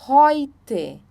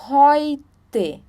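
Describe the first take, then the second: Both takes have the same delivery.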